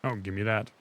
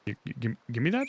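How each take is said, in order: First: Said in the usual way. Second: Mock stutter on give. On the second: Shown as a demonstration. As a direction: stammer the first word. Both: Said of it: "stammered repeat".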